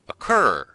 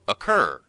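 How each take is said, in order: First: It begins with a weak uh, stress second. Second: The same.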